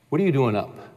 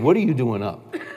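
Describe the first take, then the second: First: The question is said with mild intensity. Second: The question is said with strong intensity. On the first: "I said it with more intensity than this" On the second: "I said it with more intensity than this. I said"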